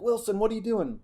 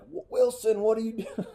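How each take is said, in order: First: A high shouted coach's question; coach yelling. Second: High mock coach yell at his quarterback. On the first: Retold or imitated. Coach calls out the quarterback in the huddle, high yell. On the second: Coach yells at the quarterback after the fumble, high and sharp. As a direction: shout it up high like a fed-up coach. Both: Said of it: "We yell".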